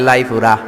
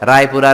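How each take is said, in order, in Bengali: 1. শব্দটি l ধ্বনি দিয়ে শুরু হয়। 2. শব্দটি r ধ্বনি দিয়ে শুরু হয়।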